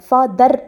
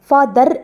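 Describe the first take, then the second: The two takes are said the same way.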